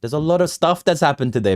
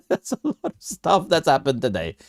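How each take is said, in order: First: Said in the usual way. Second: Laughing. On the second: Real, not acted. Repeats line while laughing.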